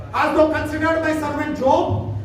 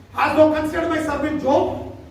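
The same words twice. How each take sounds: The two takes are said the same way.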